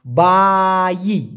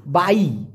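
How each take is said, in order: First: বাই split into two long syllables, baa-yii; drawn-out pronunciation. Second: Said in the usual way. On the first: Shown as a demonstration. Teacher shows learners how to pronounce বাই, stretched syllables. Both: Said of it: "উচ্চারণটা হবে".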